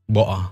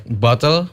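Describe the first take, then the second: First: "boa", bottle with a glottal catch for the T; Cockney dropped T. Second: Said in the usual way. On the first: Shown as a demonstration. Student explaining Cockney says "boa", T dropped. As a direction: say "boa" with the middle T left unpronounced. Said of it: "a T, uh, in center of the word". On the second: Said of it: "not pronouncing".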